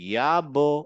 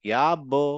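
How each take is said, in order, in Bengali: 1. শেষের ব্যঞ্জনটি একটু ইকো নিয়ে বাউন্স করে। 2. শেষের ব্যঞ্জনটি একটু ইকো নিয়ে বাউন্স করে।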